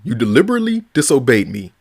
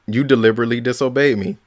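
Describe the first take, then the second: First: It is said powerfully, with conviction. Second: It is said flatly, without conviction.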